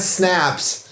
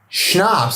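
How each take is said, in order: First: The word begins with a plain s sound. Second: The word begins with an sh sound. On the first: The speaker calls it wrong. "Not snaps" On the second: The speaker calls it right. "Schnapps, not snap"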